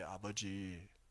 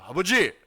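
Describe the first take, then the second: First: It is said quietly and calmly. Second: It is said with strain and force. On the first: "조용히 차분하게" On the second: "힘들게 힘을 줘가지고"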